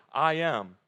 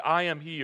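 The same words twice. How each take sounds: First: "I am" said fuller and louder as God's name; weighty I am. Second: Said in the usual way. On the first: Shown as a demonstration. Preacher giving the literal "I am" with weight. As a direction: lean into "I am", slow and solemn. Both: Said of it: "or more literally".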